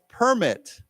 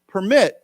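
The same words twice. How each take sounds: First: It is said with the noun pronunciation. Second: It is said with the verb pronunciation. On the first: It means a document like a license. "if you say this word as a 名词, like then it's pronounced permit" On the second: It means to allow someone to do something. "I keep mentioning these words where there's two different pronunciations"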